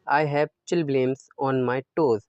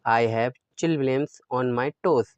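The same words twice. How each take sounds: The two takes are said the same way.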